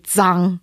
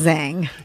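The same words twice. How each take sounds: First: The name has a Mandarin Chinese pronunciation. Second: The name has an Americanized English pronunciation. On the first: This is the original form of the name. "It's supposed to be Zhang because okay. That's a proper way" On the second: This is an adapted form others can say. "So I just kind of like Americanized it"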